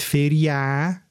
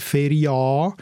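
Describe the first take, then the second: First: "Feria" with a full long Ä at the end; "Feria" ending on a strong open "ää"; strong final Ä. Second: "Feria" with a full long A at the end; "Feria" ending on a strong open "aa"; strong final A. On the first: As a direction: say "Feria" as "feri-ÄÄ", slowly. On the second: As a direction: say "Feria" as "feri-AA", slowly. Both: Shown as a demonstration. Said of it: "man kann das nicht so stark machen".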